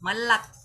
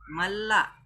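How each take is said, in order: First: The word ends in a clearly released k. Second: The word ends in a faint glottal catch. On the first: The speaker calls it wrong. "bukan malak" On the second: The speaker calls it right. "disebutkan secara samar-samar saja"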